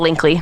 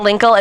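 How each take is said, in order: First: The name ends in an added 'ee' sound. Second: The name ends in a plain 'kul' sound. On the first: The speaker calls it right. "It's much cuter if you say Linkley" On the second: The speaker calls it wrong. "I refuse to pronounce it Linkle"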